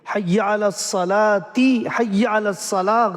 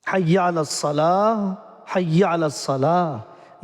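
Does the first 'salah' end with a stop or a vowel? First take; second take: vowel; stop. First: The first 'salah' ends in a linking vowel. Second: The first 'salah' stops without a final vowel. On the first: The speaker calls it wrong. "गलत है" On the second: The speaker calls it right. "ये सही है"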